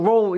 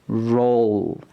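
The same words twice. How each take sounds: First: The word is said quickly. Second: The word is said slowly and carefully. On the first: The speaker calls it wrong. "이렇게 빨리 발음하면서 연습하지 마시고요" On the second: The speaker calls it right. "천천히 발음 연습을 하세요"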